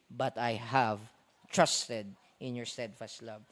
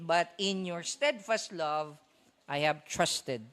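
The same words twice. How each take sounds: First: Said in the usual way. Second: Slow down and press "steadfast love" before "I have trusted"; stress on steadfast love. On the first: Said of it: "Sabi ni David". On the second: Retold or imitated. Preacher shows the church the Hebrew emphasis, pressing "steadfast love" slowly. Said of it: "yung emphasis is on the words, "In your steadfast love".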